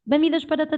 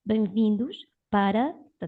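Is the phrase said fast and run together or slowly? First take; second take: fast; slow. First: Spoken fast with the words running together. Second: Spoken slowly with the words kept separate. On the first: This is how people normally talk. "all the words join together" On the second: This is after asking the speaker to slow down.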